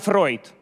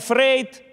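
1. Имя произносится с гласным 'oy'. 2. Имя произносится с гласным 'ey'. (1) "правильно Фройд" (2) "правильно не Фрейд"

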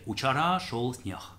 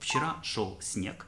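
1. Это произносится с южным диалектным произношением. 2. Это произносится на стандартном литературном русском. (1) "а в южном диалекте" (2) "литературную фразу"

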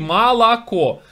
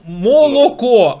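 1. Безударные гласные звучат как а. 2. Безударные гласные звучат как отчётливое о. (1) "а говорите молоко" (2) "И так молоко"

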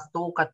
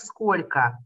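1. Средние звуки опущены, произнесено сжато. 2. Каждый звук произнесён, произнесено полностью. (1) "это очень дешевая речь" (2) "не глотать буквы внутри слова"

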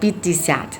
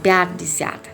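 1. พยางค์แรกมีสระ 'i' เสียงสั้น 2. พยางค์แรกมีสระ 'ya' เสียงยาว (1) "ทำไมอ่านว่า" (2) "ไม่อ่านว่า"

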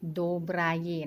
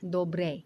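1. คำนี้พูดช้า ออกเสียงครบทุกพยางค์ 2. คำนี้พูดเร็ว และออกเสียงท้ายคำสั้นลง (1) "ถ้าจะพูดช้าๆนะคะ, พูดตามตัวสะกดเลยก็โดบรายี" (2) "แต่เวลาพูดเร็วๆเนี่ย, มันจะออกเสียงเป็นโดเบร"

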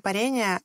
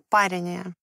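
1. Ударение падает на более поздний слог. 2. Ударение падает на первый слог. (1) "нужно говорить не парение" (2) "ударением на первый слог"

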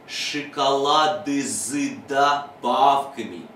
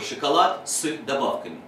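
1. Согласные перед добавками становятся звонкими. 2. Согласные перед добавками остаются глухими. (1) "Мозг должен научиться читать так" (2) "не просто вставлять в них слова типа"

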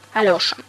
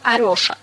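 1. Имя произносится со звуком Л. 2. Имя произносится со звуком Р. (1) "язык можно подвернуть на «л»" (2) "китаец скажет «Арёша»"

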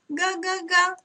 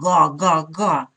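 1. Говорят высоким, тонким голосом. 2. Говорят низким, глубоким голосом. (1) "А гусенок тоненьким голоском, как маленький" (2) "Пусть гусыня говорит низким голосом"

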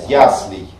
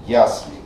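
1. Ударение на первом слоге. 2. Ударение на первом слоге.

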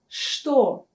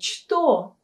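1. Слово начинается со звука 'sh'. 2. Слово начинается со звука 'ch'. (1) "мы произносим букву «ч» как «ша»" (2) "То есть у нас не «что»"

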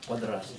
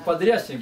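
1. После р стоит гласный 'a'. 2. После р стоит стандартный русский гласный. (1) "а у них так он подрасник" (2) "Допустим, подрясник говорит"

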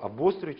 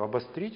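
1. Ударение падает на нестандартный слог. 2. Ударение падает на стандартный слог. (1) "ни разу не сказал" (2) "с абсолютно безупречным ударением"

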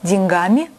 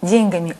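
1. Ударение на последнем слоге. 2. Ударение на первом слоге. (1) "Литературная норма" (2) "допустимый, однако устаревающий"

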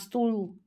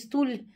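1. Звук «л» на конце твёрдый. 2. Звук «л» на конце мягкий. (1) "а стул" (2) "Не стуль"

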